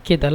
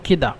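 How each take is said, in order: First: The middle consonant is a d sound. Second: The middle consonant is a d sound.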